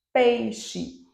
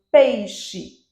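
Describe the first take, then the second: First: Said in the usual way. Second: "peixe" said louder, each sound clear; clear model word. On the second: Shown as a demonstration. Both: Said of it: "quando eu digo peixe".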